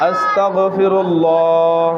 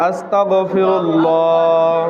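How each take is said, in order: No difference in how they are said.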